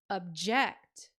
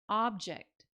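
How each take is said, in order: First: The stress is on the second syllable. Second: The stress is on the first syllable. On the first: It is a verb. "When object was used as a verb, the second syllable was the stressed syllable" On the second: It is a noun. "When object was a noun, the first syllable was stressed"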